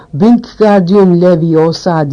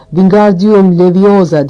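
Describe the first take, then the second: First: "Wingardium" with a long, drawn-out gar; lengthened GAR. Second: Mild shout of a spell, drawn out. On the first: Hermione correcting Ron's spell, "Wingardium" with lengthened gar. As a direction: stretch the GAR in "Wingardium", slowly. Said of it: "Garı uzatacaksın". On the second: Ron trying the spell with flailing arms, mild shout. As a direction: slowly call out the spell, understated shout. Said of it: "diye bağırıyordu". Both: A narrator's reading.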